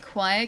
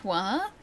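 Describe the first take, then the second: First: Said in the usual way. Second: "qua" as one long open syllable; choir flattened to qua. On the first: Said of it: "don't say fire like fa". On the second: Shown as a demonstration. Streamer giving examples, "choir" squashed to "qua". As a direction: drag out "qua" with no glide or R. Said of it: "Like choir can be qua".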